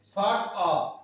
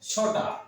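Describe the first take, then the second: First: Both words are said fully and separately. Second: The words are blended into one short word.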